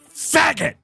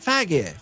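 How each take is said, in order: First: The name is said hard and forcefully. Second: The name is said softly and gently. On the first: The name is made to sound like a slur. The speaker calls it wrong. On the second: The name is made to sound less like a slur. The speaker calls it right. "You got to soften it"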